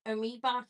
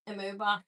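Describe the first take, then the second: First: Amoeba said with an ee vowel, uh-MEE-buh; corrected pronunciation of amoeba. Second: Amoeba said with an oo vowel, uh-MOO-bah; mispronounced amoeba. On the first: Correcting the pin's name for viewers, Amoeba as uh-MEE-buh. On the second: Stumbling over the pin's name for viewers, Amoeba as uh-MOO-bah. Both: Real, not acted. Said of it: "I'm sorry".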